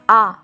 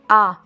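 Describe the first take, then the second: First: The vowel is oral, air only through mouth. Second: The vowel is oral, air only through mouth.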